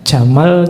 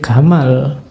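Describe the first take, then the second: First: It starts with a soft 'j' sound, standard Arabic. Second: It starts with a hard 'g', Egyptian style.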